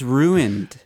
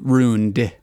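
First: It is said as two syllables, with the i sound. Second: It is said as one syllable, like roond. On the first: "There's an I" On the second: "Like R-O-O-N-E-D"

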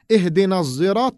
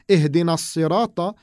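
First: The word begins with a buzzing z sound. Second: The word begins with a heavy, emphatic s sound. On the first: This is a third recitation. "another recitation which we say" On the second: This is the usual recitation. "so we don't say Ihdina Sirata"

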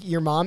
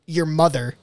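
First: It is said in a casual, joking tone. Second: It is said in a grave, serious tone.

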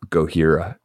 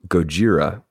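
First: The middle consonant is an H sound. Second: The middle consonant is a J sound. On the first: The speaker calls it wrong. "I automatically assume the H sound" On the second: The speaker calls it right. "So it is Gojira"

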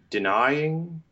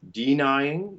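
First: The first vowel is a short open 'ih'. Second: The first vowel is a schwa or 'ee'. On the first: The speaker calls it right. "those should be like a little open I" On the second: The speaker calls it wrong. "schwa or e, neither of those is really right"

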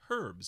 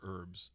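First: It is said in a British accent, with h. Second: It is said in an American accent, without h.

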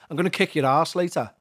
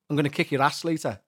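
First: The word is said as arse, long vowel. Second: The word is said as ass, short vowel. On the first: The speaker calls it right. "We say arse" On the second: The speaker calls it wrong. "Let me try saying ass in Scouse"

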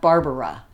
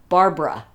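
First: The name is said with three syllables. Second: The name is said with two syllables. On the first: This is the form people wrongly assume. The speaker calls it wrong. "not Barbara" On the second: This is the name's actual form. The speaker calls it right. "is actually Barbara, ... She took the middle A out of her name"

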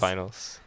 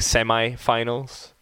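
First: It is said the British way, 'sem-ee'. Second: It is said the American way, 'sem-eye'.

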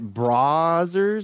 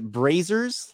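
First: The first syllable rhymes with 'bra'. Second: The first syllable rhymes with 'ray'. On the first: "Bra? Like a bra?" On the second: "Like Ray, Bray"

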